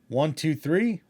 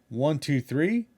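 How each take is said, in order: Both takes have the same delivery.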